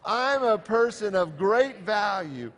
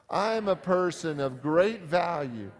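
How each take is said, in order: First: It is said with the most passion. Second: It is said with more passion.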